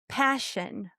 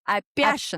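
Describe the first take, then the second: First: The p is hard and aspirated. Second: The p is soft, with a Russian accent. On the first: "de-soften the p and we want to make it more aspirated" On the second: "прямо по-русски немножко"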